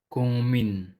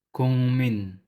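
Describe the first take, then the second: Both takes have the same delivery.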